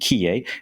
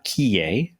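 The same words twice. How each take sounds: First: The name is pronounced the English way. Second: The name is pronounced the French way.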